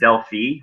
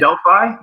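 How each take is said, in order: First: Delphi is said in the more European way. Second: Delphi is said in a non-European way. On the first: "which is the more European way" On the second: "I pronounce it Delphi"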